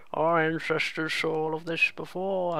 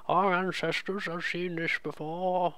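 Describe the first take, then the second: First: Slow, lightly voiced old elder; old person voice. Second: Slow, softer wise elder; old person voice. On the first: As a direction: speak as a wise old elder, slowly. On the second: Pretend. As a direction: intone it like an old sage. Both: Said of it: "I'm just doing a generic old person voice".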